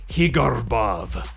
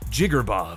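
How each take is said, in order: First: The first sound is a Spanish H. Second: The name is said short and clipped. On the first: "Some people even go with Spanish" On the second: "Some people say short and sweet like"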